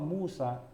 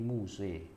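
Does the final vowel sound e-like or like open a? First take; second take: open a; e-like. First: The final vowel is an open a sound. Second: The final vowel is tilted toward e. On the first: This is the reading without imalah. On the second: This is the imalah reading of other reciters.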